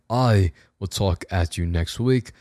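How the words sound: It is said in a put-on British accent. "we can do the rest of the outro in it"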